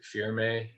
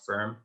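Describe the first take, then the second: First: A final vowel is sounded after the m. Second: The word ends on the m, no final vowel. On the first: The speaker calls it wrong. "one might pronounce it firme here" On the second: The speaker calls it right. "but it's pronounced firm"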